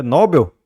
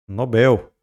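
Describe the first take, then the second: First: "Nobel" as NÓ-bel, queried loudly; wrong first-syllable stress. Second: "Nobel" stressed on BEL; "Nobel" as no-BEL, stated as the answer; correct final-syllable stress. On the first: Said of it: "Não". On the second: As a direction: land on the last syllable of "Nobel". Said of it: "A tonicidade aqui é de oxítona". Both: Shown as a demonstration.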